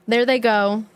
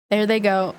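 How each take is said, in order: Both takes have the same delivery.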